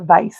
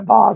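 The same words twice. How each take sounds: First: Vase is said the plain Southern way. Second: Vase is said the fancy, refined way. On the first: "That's a vase in the South" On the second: "not a vase. I'm trying to be fancy"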